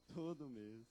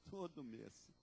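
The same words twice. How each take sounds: The two takes are said the same way.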